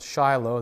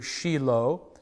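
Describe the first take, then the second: First: The name is said with English pronunciation. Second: The name is said with Hebrew pronunciation. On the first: "or we pronounce it Shiloh" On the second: "in Hebrew"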